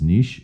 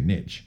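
First: The word is said the French way. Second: The word is said the American way. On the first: "the proper pronunciation, because a French word is niche" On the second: "but Americans say niche"

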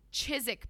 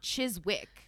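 First: The name is said without a W sound. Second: The name is said with a W sound. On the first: The speaker calls it right. "I don't think you pronounce the W" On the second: The speaker calls it wrong. "It's not Chizwick"

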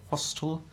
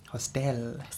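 First: The stress is on the first syllable. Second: The stress is on the second syllable.

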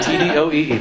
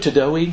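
First: Each letter is said separately. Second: It is said as a single word. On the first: The speaker calls it right. "You say T-D-O-E-E" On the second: The speaker calls it wrong. "Somebody one year tried to pronounce it"

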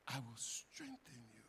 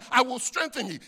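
First: It is delivered in a warm, tender tone. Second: It is delivered in a formal, preaching tone. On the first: A loving father is speaking to his son. "like my loving father was talking to his loving son" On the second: A leader is reading scripture aloud to a group. "I wasn't reading it like that"

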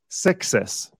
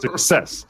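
First: The stress is on the first syllable. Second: The stress is on the second syllable. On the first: The speaker calls it wrong. "how many times did I hear my students say success" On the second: The speaker calls it right. "the stress is on the second syllable"

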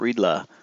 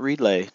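First: The name ends with an 'uh' sound. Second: The name ends with an 'ee' sound. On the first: "not Riddla" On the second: "Not Riddley"

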